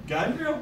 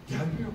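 First: GELMİYOR pitched higher, rising at the end; mounting impatience. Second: Said in the usual way. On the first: Retold or imitated. Waiting for the lift to the eighth floor, mounting impatience. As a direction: repeat "Gelmiyor" higher, as the wait drags on.

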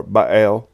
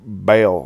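First: Baal said as "bah-AIL"; Baal as bah-AYL, stress on the second part; two-syllable pronunciation. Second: Baal said as "bail"; Baal as BAYL, long A; one-syllable pronunciation. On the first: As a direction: split Baal in two, "buh" then "ale". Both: Shown as a demonstration. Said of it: "pronounce it".

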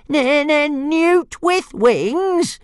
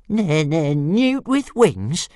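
First: Very high, drawn-out indignant squeal; stammer, then stretch it into a squeal; outraged little dragon. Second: High, slow, incredulous stutter; stammering little dragon. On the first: Dragon outraged at repeated insult. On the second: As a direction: repeat the insult in a high dragon voice. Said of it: "repeated Toothless". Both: A narrator's reading.

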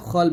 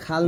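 First: "খল" with a thick kh and rounded o; rounded heavy vowel. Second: "খাল" with an open a sound; open a vowel. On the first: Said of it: "খল বলবেন।". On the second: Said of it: "এখানে খাল না বলে". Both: Shown as a demonstration.

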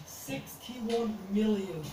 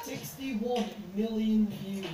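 First: Very slow, awed; slow stunned repeat. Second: Drawn-out disbelief; slow, stunned. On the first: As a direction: savour each word in disbelief. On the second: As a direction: let it sink in slowly. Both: Real, not acted. Stunned at view count.

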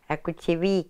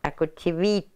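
First: Akuchivik said carefully, ending on a crisp k; Yup'ik word for mixing bowl. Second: Akuchivit with the ending changed to a t; Yup'ik plural form. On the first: Elder teaching the host the word for one mixing bowl, careful and clear. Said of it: "So if you had two mixing bowls". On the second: Elder showing the host the form for more bowls, careful and clear. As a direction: say Akuchivit, landing firmly on the final t. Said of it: "There's more than the I, becomes two". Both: Shown as a demonstration.

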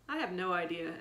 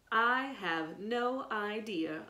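First: Said in the usual way. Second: Slow, drawn-out mocking echo; slow sneering mimicry of Evan. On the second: A narrator's reading. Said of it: "a voice said mockingly".

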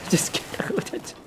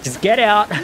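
First: Breathy laugh through it; laughing whisper. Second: Said in the usual way. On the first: Real, not acted. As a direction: giggle it out quietly.

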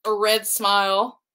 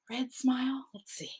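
First: Said in the usual way. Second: Whispered question to herself; soft whispered "red smile?". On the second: Real, not acted. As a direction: breathe it, unvoiced and curious. Wondering to herself while drawing.

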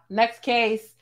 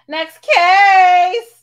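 First: Said in the usual way. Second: A much higher, louder shout of the word case. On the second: Real, not acted. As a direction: yell it out to throw the caller off the show. Dismissing a caller, talk-show style.

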